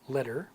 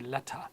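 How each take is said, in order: First: The middle T sounds like a soft D. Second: The middle T is pronounced as a clear T. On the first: "in American accent" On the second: "In the British accent with the T"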